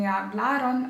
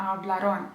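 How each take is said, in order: First: Hablaron stressed on LA; stress on middle syllable. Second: Hablaron with stress shifted onto RON; wrong final-syllable stress. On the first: Teacher modelling correct Spanish, hablaron stressed on LA. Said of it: "інколи виникають проблеми з наголосом". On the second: Teacher showing a common mistake, hablaron stressed on RON. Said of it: "Деякі кажуть не hablaron". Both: Shown as a demonstration.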